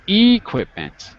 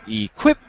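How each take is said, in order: First: The stress is not on the second syllable. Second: The stress is on the second syllable. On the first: The speaker calls it wrong. "it's not equipment" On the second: The speaker calls it right. "On the qu is the stress"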